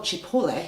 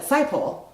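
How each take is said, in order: First: Cipolle as chee-POHL-lay, three syllables; Italian "Cipolle", opening with "ch", final vowel sounded; Italian pronunciation. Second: Saipol as two English syllables, SIGH-pole; anglicized "Saipol", with no final vowel; local pronunciation. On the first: Shown as a demonstration. Newcomer reading the road name as Italian, Italian pronunciation. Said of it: "because it's called Cipolle". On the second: Retold or imitated. Newcomer quoting the locals' name for the road, anglicized. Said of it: "everyone called it Saipol".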